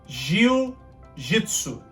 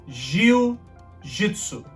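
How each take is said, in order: No difference in how they are said.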